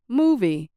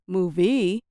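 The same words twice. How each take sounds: First: The stress is on the first syllable. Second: The stress is on the second syllable. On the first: The speaker calls it right. "I said moo a little louder and longer than V" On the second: The speaker calls it wrong. "people probably would have had no idea what I was saying"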